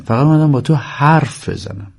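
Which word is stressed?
حرف. The stress falls on the word for talk. I came only to talk, not to see you. The speaker calls it right. "در واقع با درستش اینه، ... یعنی نه یا پایین، نمیخوام ببینمت"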